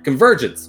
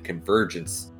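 First: It is yelled loudly. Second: It is said at normal volume.

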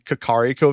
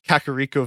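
First: The name is said with Japanese-style pronunciation. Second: The name is said with English-style pronunciation. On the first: "if it were Japanese, it'd be like the Kakariko Village" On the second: "everyone calls like the village Kakariko Village"

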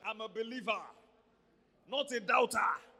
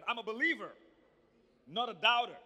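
First: It is said in a Nigerian accent. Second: It is said in an American accent.

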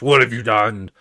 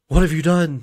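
First: It is said without excitement. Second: It is said with excitement.

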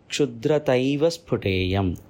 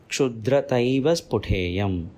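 First: The words are merged together into two joined words. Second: The words are merged together into two joined words.

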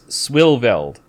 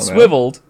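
First: The word is said with an added L sound. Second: The word is said without an L sound. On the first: The speaker calls it right. "it's swilveld" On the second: The speaker calls it wrong. "It's not swiveled"

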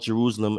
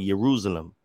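First: The word begins with a J sound. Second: The word begins with a Y sound. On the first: The speaker calls it wrong. "the place was not called Jerusalem" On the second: The speaker calls it right. "there was no J in the Hebrew"

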